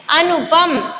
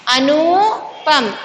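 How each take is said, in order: First: अनुपम with a short u in नु; अनुपम, quick नु before पम; correct pronunciation. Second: अनुपम with नु stretched to a long oo; अनुपम with long oo before पम; wrong pronunciation. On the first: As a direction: say अनुपम evenly, short middle vowel. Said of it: "छोटी ऊ की मात्रा". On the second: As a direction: slowly draw out नु in अनुपम. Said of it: "बड़ी ऊ की मात्रा". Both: Shown as a demonstration.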